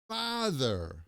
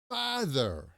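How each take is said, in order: No difference in how they are said.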